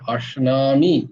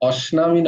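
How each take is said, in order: First: The first consonant is a palatal sh sound. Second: The first consonant is a plain s sound. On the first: The speaker calls it right. "তালবস্য যেহেতু" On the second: The speaker calls it wrong. "নয়"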